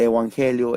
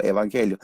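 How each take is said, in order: First: "evangelio" with a w glide in place of the v; "evangelio" opened with eu, gliding into wan; older Greek pronunciation. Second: Said in the usual way. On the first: Shown as a demonstration. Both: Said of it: "la pronunciación cambia".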